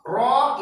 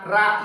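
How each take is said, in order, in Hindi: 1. ra पुर है, गोल और भरी आवाज़ के साथ। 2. ra बारीक है, पतली आवाज़ के साथ। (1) "ये पुर हो गया" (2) "ये बारीक हो गया"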